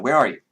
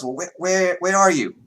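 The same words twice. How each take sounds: First: Put-on Vera in corrected accent. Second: High, put-on accent, urgent question; Vera in wrong accent. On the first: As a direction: ask plainly in a lightly put-on accent. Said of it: "that's the wrong accent for Vera, but she's like". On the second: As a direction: ask in a much higher accented character voice. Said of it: "that's the wrong accent for Vera".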